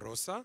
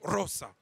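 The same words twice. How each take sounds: First: The first syllable has ordinary, moderate stress. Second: The first syllable is stressed very forcefully. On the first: This is the Latin pronunciation. "les latins accentuaient déjà rosa" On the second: This is the pronunciation after Frankish influence. "ils ont accentué ça encore plus fortement"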